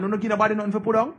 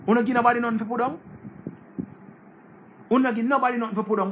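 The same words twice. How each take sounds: First: Fast, mocking question thrown back at a friend; quick disbelieving jab; incredulous retort. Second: Fast, pushed higher, mocking disbelief; incredulous retort. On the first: Scolding an ungrateful friend over fifty dollars, fast incredulous mockery. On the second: Pressing the ungrateful friend again, fast rising disbelief. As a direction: hammer the question home, quicker each time.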